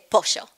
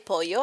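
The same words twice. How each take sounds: First: The double L is a sh sound. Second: The double L is not a sh sound. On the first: This is how it is said in the speaker's home region. "I say pollo. ... The double L in Argentina is sh sound" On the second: This is how it is said in another region. "I don't say pollo"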